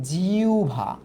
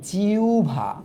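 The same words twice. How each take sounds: The two takes are said the same way.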